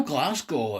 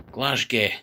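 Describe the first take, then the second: First: Said in the usual way. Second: "Glasgow" ending in "gay", with a zh in the middle; joke mispronunciation. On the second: Shown as a demonstration. Vlogger teasing Scottish city name, Glasgow jokingly ended in "gay". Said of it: "They don't call it Glasgow".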